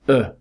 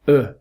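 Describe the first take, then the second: First: The vowel sound is very short. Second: The same.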